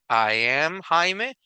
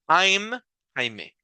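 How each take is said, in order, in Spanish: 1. I y am son dos palabras separadas y completas. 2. I y am se unen en una sola sílaba. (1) "Yo puedo decir I am Jaime" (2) "o si uso una contracción"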